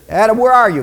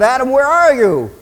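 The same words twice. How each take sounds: First: Raised, louder call; first loud summons; God calling out. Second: High, loud drawn call; big swelling summons, pitched well up; God calling insistently. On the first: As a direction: call to someone out of sight. God calls to hiding Adam. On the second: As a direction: holler for someone hiding. God calls Adam more insistently. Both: Acted.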